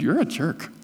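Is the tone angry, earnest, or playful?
earnest. It is said in a serious, pointed tone. The speaker wants the listener to understand something. "And the third, I'm trying to get something through to you"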